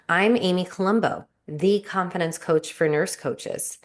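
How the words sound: It is said in a confident, authoritative tone. The speaker is sure of who they are. The speaker calls it right. "That's very confident, authoritative"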